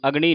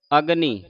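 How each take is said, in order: First: ਅਗਨੀ as "agṇi", tongue curled back; wrong retroflex n. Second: ਅਗਨੀ with a dental n; tongue at the teeth for the n in ਅਗਨੀ. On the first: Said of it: "ਅਗਨੀ ਹੁੰਦਾ ਨਾਣੇ ਦੇ ਨਾਲ". (ਅਗਨੀ ਨੂੰ ਣਾਣੇ ਨਾਲ "ਅਗਣੀ") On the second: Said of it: "ਨੰਨੇ ਦੀ ਆਵਾਜ਼ ਉਚਾਰਨ". (ਅਗਨੀ ਵਿੱਚ ਨੰਨੇ ਦੀ ਆਵਾਜ਼) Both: Shown as a demonstration.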